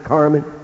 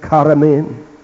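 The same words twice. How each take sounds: First: The name is said with an American pronunciation. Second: The name is said with a Romanian pronunciation. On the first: This is how people at home say it. "we would pronounce it Carmen" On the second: This is how people in that country say it. "It's pronounced Carmen there"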